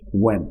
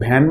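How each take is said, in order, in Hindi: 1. शब्द 'w' ध्वनि से शुरू होता है। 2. शब्द 'bh' ध्वनि से शुरू होता है। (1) "रिमेंबर द प्रोनाउंसिएशन" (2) "इसे भैन मत बोलिएगा"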